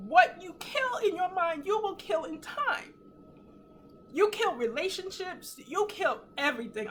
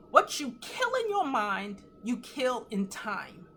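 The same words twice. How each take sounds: First: Real crying, voice pitched high; choked up with tears, voice climbing high; tearful, emotional. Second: Slow, weighty statement. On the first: Real, not acted. Repeating her revelation to viewers, moved to tears. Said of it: "I'm sorry to be emotional". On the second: Retold or imitated. Sharing a revelation from the shower, slow and weighty. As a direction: let each word land slowly.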